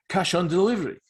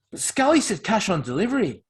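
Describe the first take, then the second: First: Higher, louder incredulous repeat; mocking echo. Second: Higher, louder unsure protest; faltering, unsure. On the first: Echoing the cash demand to mock it, incredulous. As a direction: throw the demand back in mockery. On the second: Objecting that Scally promised cash on delivery, faltering and unsure. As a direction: falter as you object to the deal. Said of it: "voice was faltering and unsure". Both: A narrator's reading.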